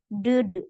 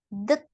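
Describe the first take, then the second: First: The word ends with a D sound. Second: The word ends with a T sound. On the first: The speaker calls it wrong. "Kita tidak baca sebagai ded, pakai D tidak" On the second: The speaker calls it right. "Tapi dibaca T, det, pakai T ya"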